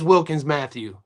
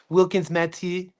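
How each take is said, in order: First: The surname is pronounced with an English accent. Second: The surname is pronounced with a French accent. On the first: "It's Wil is" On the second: "I'm not gonna pronounce like the French. They say"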